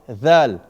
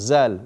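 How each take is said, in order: First: It begins with a voiced th sound. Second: It begins with a buzzing z sound. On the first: The speaker calls it right. "because the tongue has to go out" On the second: The speaker calls it wrong. "Zal is totally wrong"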